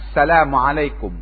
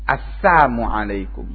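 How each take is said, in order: First: The first word keeps its 'l' sound. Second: The first word drops its 'l' sound. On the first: Peace be upon you. The speaker calls it right. "mestinya assalamu alaikum" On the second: Woe be upon you. The speaker calls it wrong. "dikurangi lamnya"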